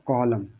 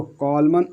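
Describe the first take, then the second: First: कॉलम finishing on M; contrast, N silent. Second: कॉलमन with "man" at the end; contrast, N sounded. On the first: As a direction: say कॉलम slowly without any N. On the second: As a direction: say कॉलमन slowly, voicing the final N. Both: Shown as a demonstration. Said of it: "कॉलमन और कॉलम में अंतर देखो".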